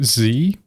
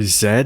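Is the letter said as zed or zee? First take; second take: zee; zed. First: The letter is said as zee. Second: The letter is said as zed. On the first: This is the speaker's usual way of saying it. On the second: This is how some other people say it.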